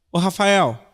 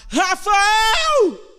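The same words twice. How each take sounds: First: Said in the usual way. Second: Shouted call. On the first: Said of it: "Chamar é". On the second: Shown as a demonstration. Preacher contrasting calling with crying out, shouting "Rafael!". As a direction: cry out the name "Rafael!" as if across a field.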